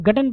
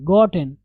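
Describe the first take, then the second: First: गटन with an "uh" vowel; mispronounced GOTTEN. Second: गॉटन with a rounded o; correct GOTTEN. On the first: Teacher quoting learners' wrong reading, गटन with uh vowel. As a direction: say गटन as "gutten". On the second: Teacher drilling the end of forgotten, गॉटन with rounded o. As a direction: say गॉटन with o, not "uh". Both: Shown as a demonstration. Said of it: "जो कि गलत है".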